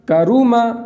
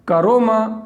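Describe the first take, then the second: First: The second vowel is a pure 'u' sound. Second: The second vowel is lowered to 'o'. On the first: The speaker calls it right. "मारूफ पढ़ना है।" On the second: The speaker calls it wrong. "कितना बेकार लगता है, इसलिए इसको पढ़ना नहीं है।"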